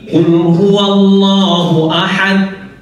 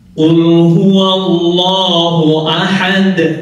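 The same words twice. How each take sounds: First: The final d is not heard at all. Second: The final d is released with an echo. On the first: The speaker calls it wrong. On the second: The speaker calls it right.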